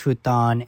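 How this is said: The word has an English pronunciation. "In the West, you often hear it as futon"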